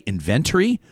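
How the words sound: The word is said with a British accent. The speaker calls it right. "I also love British accents... Did you hear him say inventory?"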